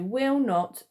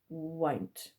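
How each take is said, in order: First: It is said as two full words. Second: It is said as one contracted word. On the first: "so will not becomes won't" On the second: "so will not becomes won't"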